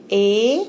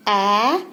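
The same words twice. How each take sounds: First: ए said as the letter name "ay"; name the letter ए for a learner; ए as in "day", held out. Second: ए as the open "æ" that starts "ant"; teacher's drawn-out "æ" for ए; phonic A sound. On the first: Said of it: "ए को हम pronounce करते हैं". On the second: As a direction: sound out ए as short "a". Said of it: "ए को हम pronounce करते हैं ए". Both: Shown as a demonstration.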